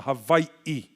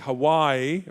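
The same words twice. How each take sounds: First: It is said with a glottal stop inside. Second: It is said without a glottal stop inside. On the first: "There is a glottal stop in the middle" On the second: "this is why we say Hawaii"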